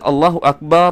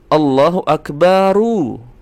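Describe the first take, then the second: First: The final r ends without any vowel. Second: The final r carries a short u vowel. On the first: The speaker calls it wrong. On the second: The speaker calls it right. "cara membacanya ketika diwasol atau disambungkan"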